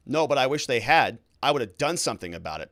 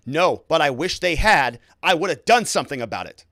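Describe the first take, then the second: First: Said in the usual way. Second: Raised, insistent protest; voice rising. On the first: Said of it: "He says". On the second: Retold or imitated. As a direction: push it up louder in protest. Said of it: "with his voice rising".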